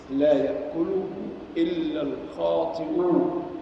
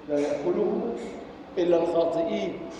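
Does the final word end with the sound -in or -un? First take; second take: -un; -in. First: The last word ends with the sound -un. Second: The last word ends with the sound -in. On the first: The speaker calls it right. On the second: The speaker calls it wrong.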